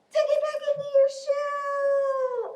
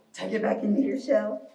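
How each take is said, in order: First: Very high, squeaky little voice; tiny turtle voice. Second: Low, pretend-creature voice; low turtle voice. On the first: Pretend. Teacher's last turn tucking turtles in, tiny high voice. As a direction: sing it out high, stretching the last word. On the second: Teacher guiding little turtles into shells, playfully low voice. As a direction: drop the pitch for the instruction.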